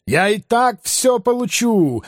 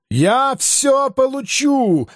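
First: "так" stressed high, falling. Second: "всё" stressed, high and slow. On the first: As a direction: hit the word "так" in "Я и так всё получу". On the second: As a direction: hit the word "всё" in "Я всё получу". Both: Acted. Madman repeats, stress moves.

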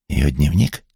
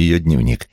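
First: Mildly startled question, rising at the end; surprised echo question. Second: Said in the usual way. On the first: A narrator's reading. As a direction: query it back, taken aback. Startled echo of unexpected news.

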